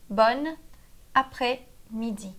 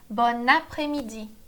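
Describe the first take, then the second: First: "Bon après-midi" slowly, with pauses between words; slow teaching repeat. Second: Said in the usual way. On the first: Shown as a demonstration. Teacher repeating the phrase for learners, slow and broken up.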